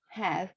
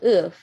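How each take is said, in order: First: The word is said fully with a clear vowel. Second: The word is said reduced with a weak vowel. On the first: "its strong form is have" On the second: "the weak form is if"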